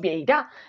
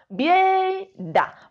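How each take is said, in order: First: The stress is on the last syllable. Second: The stress is on the first syllable. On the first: The speaker calls it wrong. "No decimos vieira" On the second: The speaker calls it right. "El golpe de voz está en la primera sílaba"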